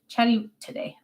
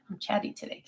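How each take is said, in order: First: Said in the usual way. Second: Soft unvoiced whisper; sheepish whispered confession to viewers; whispered admission. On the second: Real, not acted. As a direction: confide it under your breath. Repeats it whispered.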